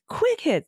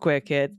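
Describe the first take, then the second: First: It is said in an upbeat, cheerful tone. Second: It is said in a sad, deflated tone. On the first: The speaker calls it right. "I should be like, hey" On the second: The speaker calls it wrong. "I didn't mean to sound so sad about having quick hits"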